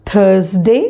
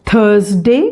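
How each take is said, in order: Both takes have the same delivery.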